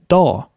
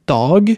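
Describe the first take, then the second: First: The final g is dropped. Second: The final g is pronounced. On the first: "auch nur Da" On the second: "statt Dag"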